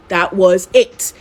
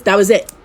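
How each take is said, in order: First: "That was it" slowed right down; emphatic finality. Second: Said in the usual way. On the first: Shown as a demonstration. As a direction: space out each word, stretching "it". Slow repeat for finality.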